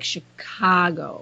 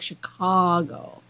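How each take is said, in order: First: It is said the nasal Midwestern way. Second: It is said the Californian way.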